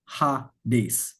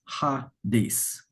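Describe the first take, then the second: The two takes are said the same way.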